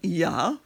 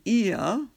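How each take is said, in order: First: It is said as one syllable starting with y. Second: It is said as two separate vowel syllables. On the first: "we're changing that to a Y sound" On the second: "instead of saying ia in Hawaiian"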